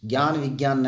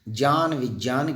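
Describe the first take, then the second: First: The cluster starts with a hard 'g' sound. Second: The cluster starts with a soft 'j' sound. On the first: The speaker calls it wrong. "ज्ञान विज्ञान न बोल करके" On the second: The speaker calls it right. "इसका उच्चारण है जय"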